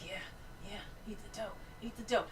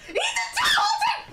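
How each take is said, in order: First: Soft, hushed egging-on; quietly will someone on, under the breath; murmured urging. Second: Piercingly high, loud shriek; whistle-register scream. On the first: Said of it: "Like, I'm like". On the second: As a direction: scream the urging at the top of your range. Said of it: "hit a fucking whistle register when I screamed". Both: Retold or imitated.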